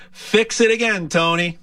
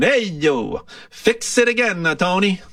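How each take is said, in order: First: Said in the usual way. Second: Italian accent. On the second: Shown as a demonstration. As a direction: toss it off like a comic Italian mechanic. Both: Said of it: "I'll say it with an Italian accent".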